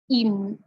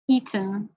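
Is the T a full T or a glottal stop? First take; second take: glottal stop; full T. First: The T is a throat stop released nasally. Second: The T is fully released between vowels. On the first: It sounds like the American accent. "and then with a glottal" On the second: It does not sound like the American accent. "I'll say it with a regular T"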